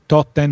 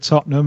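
First: It is said in an Argentine-style Spanish accent. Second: It is said in a plain native English accent. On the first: "Aussie Ardiles style" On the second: "when I said Tottenham"

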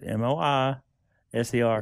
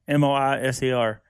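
First: The letter I is said with extra emphasis. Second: The letters are spelled with even stress.

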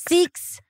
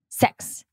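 First: The vowel sounds long, like 'seeks'. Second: The vowel sounds like 'sex', New Zealand style.

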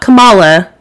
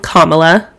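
First: It does not begin like the word comma. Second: It begins like the word comma, then la. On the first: The speaker calls it wrong. "not Kamala" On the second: The speaker calls it right. "that's how you say her name"

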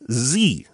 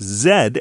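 First: The letter is said as zee. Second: The letter is said as zed. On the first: This is the usual American way of saying it. "you may note that I'm pronouncing this letter Z" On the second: This is how it is said outside the US. "Other places pronounce it Z"

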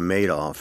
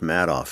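First: The first syllable sounds like the word 'made'. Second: The first syllable does not sound like 'made'. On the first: It is the name of the man who made off with the money. The speaker calls it wrong. "You also always say Madoff" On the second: It is the speaker's own family name. The speaker calls it right. "and it's Madoff"

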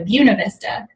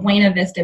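First: The name is said with a Southern accent. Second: The name is said without a Southern accent. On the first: This is how it is said in Georgia. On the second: This is how it is said elsewhere.

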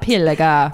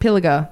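First: It is said in a put-on Italian accent. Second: It is said in a plain Australian accent. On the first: "In an Italian accent" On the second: "That's how I pronounce it"

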